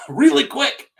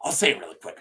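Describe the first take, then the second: First: Higher, laughing restart of "really quick". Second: Said in the usual way. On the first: Real, not acted. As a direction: laugh it off and start over. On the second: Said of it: "So, really quick".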